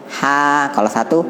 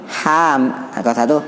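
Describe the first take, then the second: The two takes are said the same way.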